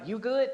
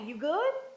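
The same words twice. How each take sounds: First: It sounds offhand and uninterested. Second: It sounds warm and concerned. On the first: The speaker does not really care how the listener feels. "That means I'm not really caring about how you feel" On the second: The speaker cares about the listener's well-being. "I'm concerned about your well-being. I wanna check in"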